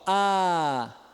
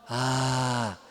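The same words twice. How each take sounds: First: The vowel is fully voiced and clear. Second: The vowel is said with a breathy murmur.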